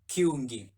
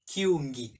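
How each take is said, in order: First: The word starts with a k sound. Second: The word starts with a k sound.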